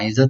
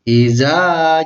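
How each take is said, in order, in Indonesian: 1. Vokal akhir itu dipotong pendek tanpa ditahan. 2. Vokal akhir itu ditahan selama dua ketukan. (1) "iza itu salah" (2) "ditahan secara dua ketukan atau ditahan lamanya dua harkat"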